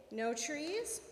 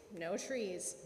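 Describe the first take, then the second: First: "No trees" with a rising question tune; questioning echo. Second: "No trees" low, soft and falling; firm confirmation. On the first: Monkey checking Papa God's rule, "No trees" rising as a question. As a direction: lift "trees" as a puzzled question. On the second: Papa God confirming the rule, "No trees" low and falling. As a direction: drop "trees" low as a final answer. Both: A narrator's reading.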